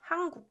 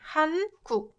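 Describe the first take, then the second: First: The first syllable ends in an ng sound. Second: The first syllable ends in a clear n sound. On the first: "this one sounds like 한국" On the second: "you can enunciate it and pronounce like 한국"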